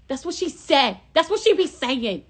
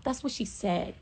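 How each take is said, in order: First: Higher, louder hyped repeat of That's what she said. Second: Said in the usual way. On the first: Shown as a demonstration. Vlogger hyping the quote, louder and higher. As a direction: punch it up with hype.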